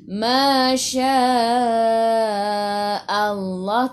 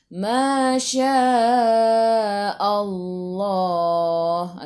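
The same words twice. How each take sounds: First: The vowel in Allah stays a full open a. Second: The vowel in Allah is rounded toward o. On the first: The speaker calls it right. "maintain A" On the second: The speaker calls it wrong.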